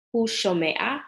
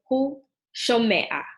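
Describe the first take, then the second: First: Said in the usual way. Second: Hu shomea said slowly, each syllable drawn out; slow model pronunciation. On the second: Shown as a demonstration. Teacher modeling hu shomea for students, slow and deliberate. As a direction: spell out hu shomea slowly for the learner.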